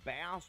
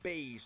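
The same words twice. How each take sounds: First: It is pronounced like the word for the fish. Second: It is pronounced like the word for the instrument. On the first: "like the fish bass" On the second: "like the stringed instrument bass"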